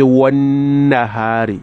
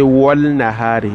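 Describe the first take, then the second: First: The L merges into a long nasal N. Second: An L sound is pronounced before the N. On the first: The speaker calls it right. "You put the gunna there because the nun has a shadda" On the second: The speaker calls it wrong. "You don't say wal nahari, no, wal nahari is wrong"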